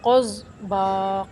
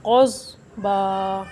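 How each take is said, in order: First: क़ज़ बा with no stop on ज़ाद; wrong reading. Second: क़ज़ बा with a held stop on ज़ाद, slow; correct reading. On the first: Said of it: "क़ज़ बा नहीं पढ़ना". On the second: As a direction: pause firmly on ज़ाद in क़ज़ बा, then बा. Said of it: "ज़ाद के ऊपर रुकना है". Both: Shown as a demonstration.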